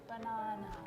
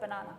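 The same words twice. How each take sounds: First: It is said in a slow British accent. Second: It is said in an Australian accent.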